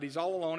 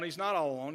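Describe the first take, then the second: First: Said in the usual way. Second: Not pressed firmly, rest falls away; a firm correction with not stressed. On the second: Shown as a demonstration. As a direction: lean into the word not to correct him.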